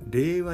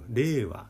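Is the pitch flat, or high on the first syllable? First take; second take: flat; initial high. First: The pitch stays level without an initial peak. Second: The pitch peaks on the first syllable. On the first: "令和に変えようかなという動きがあるそうです" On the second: "頭高ということでアクセントが頭にある"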